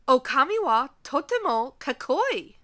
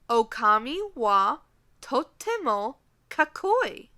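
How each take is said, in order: First: The sentence is spoken at a normal pace. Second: The sentence is spoken a little more slowly.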